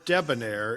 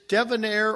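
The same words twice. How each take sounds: First: The middle consonant is a B sound. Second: The middle consonant is a V sound. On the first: "or a B" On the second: "with a V"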